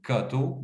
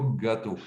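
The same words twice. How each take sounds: First: "gâteau" with a hard k, "câteau"; "gâteau" mispronounced as "kato"; pupil's mistaken sound. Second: "gâteau" with a clearly voiced g; "gâteau" carefully as "gato"; corrected sound. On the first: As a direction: devoice the g in "gâteau" to k. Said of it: "ce n'est pas le mot gâteau". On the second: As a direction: stress the g in "gâteau". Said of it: "c'est le mot gâteau". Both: Shown as a demonstration.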